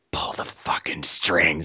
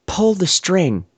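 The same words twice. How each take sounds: First: Slow, low, insistent whisper; whispered order. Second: Deliberately slow, drawn-out order; slow command. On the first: She repeats her order to the handcuffed man, slow whisper. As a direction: hiss the order slowly under the breath. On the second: She instructs the handcuffed man, slow command. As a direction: stretch each word into a slow instruction. Acted command before whispered repeat. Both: Retold or imitated.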